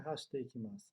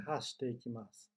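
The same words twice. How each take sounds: First: Hashite ikimasu run together with no stop; wrong version. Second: Hashite ikimasu with a short stop before ikimasu; pause, then hit the next syllable in Hashite ikimasu; small tsu pause. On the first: Teacher shows the wrong way: run together without pause. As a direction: glide straight from hashite into ikimasu. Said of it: "não é hashite ikimasu". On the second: Teacher shows students the small tsu: clipped pause. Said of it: "Dá uma pausa e uma martelada na próxima sílaba". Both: Shown as a demonstration.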